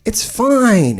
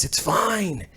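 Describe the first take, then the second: First: Said in the usual way. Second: Dropped almost to nothing, much softer; tossed off under the breath; muttered aside. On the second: Shown as a demonstration. Brushing off the negative comments, a soft mutter. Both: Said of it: "We like all the comments".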